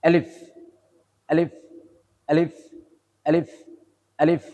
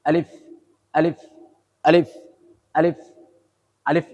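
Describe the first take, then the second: No difference in how they are said.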